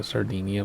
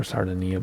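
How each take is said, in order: First: "Sardinia" said sar-DEE-nee-uh; long "dee" in "Sardinia". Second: "Sardinia" said sar-DIN-ee-uh; short I in "Sardinia". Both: Shown as a demonstration. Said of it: "Or Sardinia bush trip".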